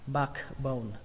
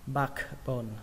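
Both takes have the same delivery.

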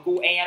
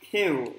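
First: It is said as two separate syllables. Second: It is said as one single syllable. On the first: The speaker calls it wrong. "không đọc là cu e đâu nha mọi người" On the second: The speaker calls it right. "Mình phải đọc mình phải sang chảnh"

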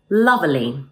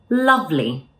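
First: The middle E sound is pronounced. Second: The middle E sound is dropped. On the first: The speaker calls it wrong. "it sounds a bit unnatural" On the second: The speaker calls it right. "let's drop the E sound in the middle"

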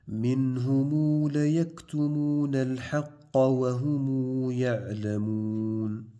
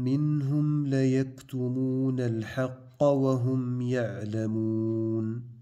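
First: The final m sounds carry a long u vowel. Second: The final m sounds are closed with no vowel. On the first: "نعطف بالصلة" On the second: "قرأنا بإسكان الميم"

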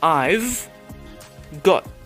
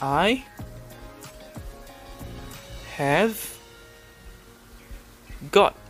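First: Have is shortened into I've. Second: The word have is said in full. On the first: "Cara sebut dia, the way you say it" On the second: "I've got ditulis begini"

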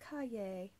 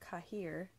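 First: The word is said in a fancy way. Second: The word is said in a plain way. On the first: The speaker calls it right. "you have to pronounce it pinkies up" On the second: The speaker calls it wrong. "I thought it was pronounced Cahier"

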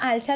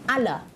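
First: The middle t sound is clearly pronounced. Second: The middle t sound is dropped entirely.

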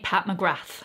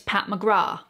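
First: McGrath ends in a th sound. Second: McGrath ends in a plain t sound. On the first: The speaker calls it right. "The TH, you hear" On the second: The speaker calls it wrong. "you actually don't pronounce the TH"

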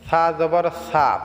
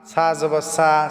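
First: The consonant is made thin and soft. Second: The consonant sounds like a plain s. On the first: The speaker calls it right. "পাতলা হবে সা" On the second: The speaker calls it wrong. "অনেকে আছে সা, ... এইরকম অনেকে আছি বলি, কিন্তু এইরকম হবে না।"

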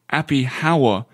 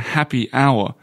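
First: The h in 'hour' is pronounced aloud. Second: The h in 'hour' is silent. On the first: It imitates a French speaker of English. The speaker calls it wrong. "I've heard a few Parisians say happy hour" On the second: It is the usual English pronunciation. The speaker calls it right. "rather than happy hour"

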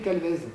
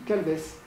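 First: The name does not end in an s sound. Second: The name ends in a voiceless s sound. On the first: This is how people from elsewhere say the name. "Je ne dirai jamais Calvez" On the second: This is how the family says the name. "je dis Calves"

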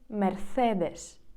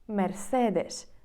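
No difference in how they are said.

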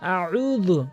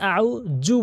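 First: The last syllable starts with a dh sound. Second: The last syllable starts with a j sound. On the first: The speaker calls it right. "বারবার প্র্যাকটিস করবেন আমার সাথে" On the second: The speaker calls it wrong. "জালের কাছে জিমের উচ্চারণ করে ফেলে, এটি মারাত্মক লেভেলের ভুল"

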